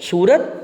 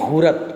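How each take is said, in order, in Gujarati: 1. આ શબ્દ s અવાજથી શરૂ થાય છે. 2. આ શબ્દ h અવાજથી શરૂ થાય છે.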